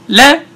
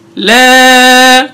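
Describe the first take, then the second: First: The vowel is short and clipped. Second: The vowel is drawn out long. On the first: "no mad" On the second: "that's called mad"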